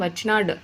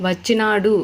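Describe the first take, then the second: First: వచ్చినాడు cut to "vachchinaad"; final vowel dropped. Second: వచ్చినాడు ending in a full "u"; vowel ending. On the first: Teacher showing a consonant ending, వచ్చినాడు without its u. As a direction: stop వచ్చినాడు on d, no u. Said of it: "డాడ్ అనేవి హల్లులు". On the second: Teacher showing a vowel ending, వచ్చినాడు ending in u. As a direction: sound out the final u of వచ్చినాడు. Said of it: "ఊతో end అవుతుంది". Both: Shown as a demonstration.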